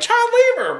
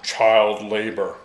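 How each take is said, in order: First: It is said in an excited, celebratory tone. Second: It is said in a gloomy, disapproving tone.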